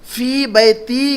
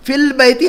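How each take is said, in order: First: "फी बैती" with long fii and no L; teacher's model of "फी बैती" without article; correct form. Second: "फिल बैती" higher, with L in fil; raised-pitch warning example "फिल बैती", article sounded; form to avoid. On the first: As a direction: say "फी बैती" as fii baytii, both vowels held. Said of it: "फिल बैती नहीं कहेंगे आप". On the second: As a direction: say "फिल बैती" as fill-bayti, L held. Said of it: "नहीं कहेंगे आप". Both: Shown as a demonstration.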